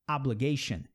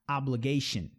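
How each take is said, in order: The two takes are said the same way.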